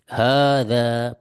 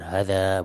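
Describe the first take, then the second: First: The vowels are held long, two beats each. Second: The vowels are short, one beat each. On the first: The speaker calls it right. "di sini bacanya dua harokat sebagaimana ini" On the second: The speaker calls it wrong.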